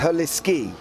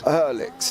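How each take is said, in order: First: The name ends with a 'ski' sound. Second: The name ends with an 'ix' sound. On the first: The speaker calls it right. "the E is pronounced as an E, so it's Herliski" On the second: The speaker calls it wrong. "and not Herlix"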